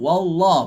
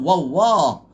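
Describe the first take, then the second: First: The l sound is held steady without movement. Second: The l sound moves, adding an extra sound effect. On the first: The speaker calls it right. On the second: The speaker calls it wrong.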